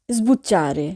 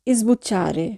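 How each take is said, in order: Both takes have the same delivery.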